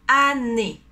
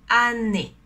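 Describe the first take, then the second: The two takes are said the same way.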